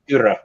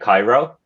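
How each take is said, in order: First: The name ends with an 'ah' sound. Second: The name ends with an 'oh' sound. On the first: The speaker calls it right. "It's Kyra" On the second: The speaker calls it wrong. "I think you said something like Cairo, like the, the capital of Egypt"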